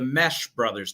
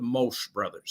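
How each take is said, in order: First: The name's vowel sounds like the one in 'mesh'. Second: The name's vowel sounds like the one in 'mosh'. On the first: The speaker calls it right. "It's the Mesh brothers" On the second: The speaker calls it wrong. "not the Mosh brothers"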